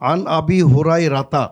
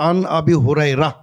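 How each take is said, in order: First: The name ends with a full '-ta' syllable. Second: The name ends cut short without '-ta'. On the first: The reading continues without stopping. "পুরোপুরি পড়বা" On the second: The reader stops at this word. "যদি ওয়াকফ করো"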